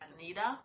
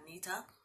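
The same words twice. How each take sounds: First: The middle consonant sounds like a soft d. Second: The middle consonant is a crisp t sound. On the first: This is how the other group says it. "they would be like" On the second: This is how the speaker's own group says it. "we pronounce our T's as T's and not D's"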